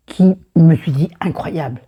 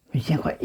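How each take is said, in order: First: Said in the usual way. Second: Hushed whisper of amazement; whispering to herself in awe. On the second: Shown as a demonstration. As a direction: breathe it out as a secret. Repeats the line, then whispers it.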